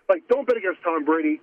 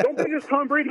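First: Said in the usual way. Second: Pitched high, leaning hard on BET and Brady; emphatic high-pitched insistence. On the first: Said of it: "I love the conviction". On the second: Real, not acted. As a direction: say it like a warning you won't repeat. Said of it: "Yes, very emphatic".

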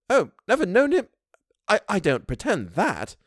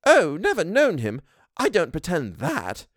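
First: Much higher, hesitant housekeeper; a servant stumbling to admit; Missus Gross voice. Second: Higher, slower housekeeper; an honest servant admitting; Missus Gross voice. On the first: Housekeeper answers the governess, faltering. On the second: Housekeeper answers the governess, candid. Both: A narrator's reading.

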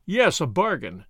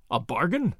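First: Slow, falling tune on "bargain"; firm confirmation. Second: Rising question on "bargain"; sharp query. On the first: Tommy confirms his offer, "bargain" slow and falling. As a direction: confirm "bargain" slowly, as a statement. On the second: Bearded man seizes on Tommy's offer, "bargain" as a sharp rising question. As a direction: take up "bargain" sharply, lifting the end. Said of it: "took him up sharply". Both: A narrator's reading.

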